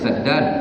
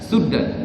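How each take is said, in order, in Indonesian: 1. Vokal pertama adalah bunyi a terbuka. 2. Vokal pertama adalah bunyi u bulat. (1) "kita baca saddan" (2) "Dia baca suddan"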